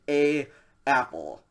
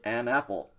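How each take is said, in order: First: No N sound links the article to apple. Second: An N sound links the article to apple. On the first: The speaker calls it wrong. "you don't say a apple" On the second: The speaker calls it right. "to make it nice and smooth, you say an apple"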